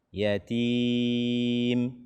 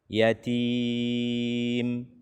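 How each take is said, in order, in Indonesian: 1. Huruf m akhir memiliki dengung sengau yang sedang. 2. Huruf m akhir memiliki dengung sengau yang sedang.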